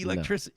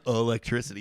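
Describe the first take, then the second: First: The word does not begin with 'uh'. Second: The word begins with an 'uh' vowel sound. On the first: The speaker calls it right. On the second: The speaker calls it wrong. "it's not U H L. It's not electricity"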